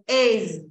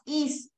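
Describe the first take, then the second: First: The word ends with a buzzing Z sound. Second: The word ends with a hissing S sound. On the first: The speaker calls it right. "el verbo to be es con Z" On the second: The speaker calls it wrong. "No es is"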